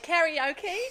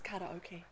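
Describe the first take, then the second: First: It is said the New Zealand English way. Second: It is said the Japanese way.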